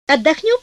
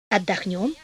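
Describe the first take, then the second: First: «Отдохнём?» с подъёмом голоса, повыше; спроси «Отдохнём?», предлагая жене; вопрос. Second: «Отдохнём» низко и мягче; согласись тихо: «Отдохнём»; тихий ответ. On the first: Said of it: "спросил муж". (вопросительно: «Отдохнём?») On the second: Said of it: "ответила жена". (негромкое согласие: «Отдохнём») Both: A narrator's reading.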